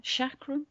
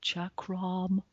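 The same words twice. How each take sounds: First: Chakram with soft sh and a questioning rise; unsure pronunciation. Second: Chakram with hard ch, falling, quiet; corrected pronunciation. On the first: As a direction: say Chakram as shakram, rising. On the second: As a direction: say Chakram as chakram, settled. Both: Shown as a demonstration. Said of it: "How do you pronounce that?".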